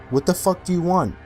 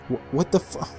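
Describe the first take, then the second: First: It is said in an angry, commanding tone. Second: It is said as a broken, frightened whimper.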